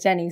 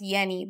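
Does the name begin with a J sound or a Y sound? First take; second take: J sound; Y sound. First: The name begins with a J sound. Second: The name begins with a Y sound. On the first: This is how the owner of the name says it. "I say Jenny" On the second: This is how English speakers say the name. "in English, obviously, it's pronounced Yenny"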